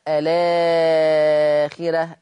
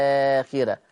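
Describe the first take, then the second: First: الآخرة stretched, slow and louder; long madd al-badal. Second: الآخرة with a short plain vowel; short madd. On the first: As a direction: hold the vowel of الآخرة long. (الآخرة بإشباع البدل) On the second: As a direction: say الآخرة quickly, no stretch. (الآخرة بالقصر) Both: Shown as a demonstration. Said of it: "أنا ليا تثليث البدل".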